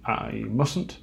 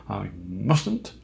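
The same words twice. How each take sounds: First: Said in the usual way. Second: Laughing at himself, mustn't said with a chuckle. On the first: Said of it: "I won't". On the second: Real, not acted. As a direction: repeat I mustn't while laughing.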